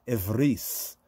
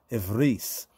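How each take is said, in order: No difference in how they are said.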